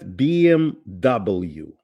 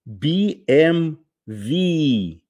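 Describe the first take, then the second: First: The letters are named the English way. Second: The letters are named a non-English way. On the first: "в Америке, вы знаете, и в англоязычных странах говорят BMW" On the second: "настоящее произнесение этого названия звучит так"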